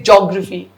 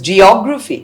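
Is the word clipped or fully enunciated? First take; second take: clipped; enunciated. First: Some syllables are blurred or dropped. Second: Every syllable is clearly pronounced. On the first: The speaker calls it wrong. "The geography teachers will say" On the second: The speaker calls it right. "but it's geography"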